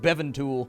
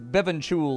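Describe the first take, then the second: First: The middle consonant is a plain t sound. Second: The middle consonant is a ch sound. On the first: The speaker calls it wrong. "I don't think that's the right way to say it" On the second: The speaker calls it right. "the T makes, like, a ch sound"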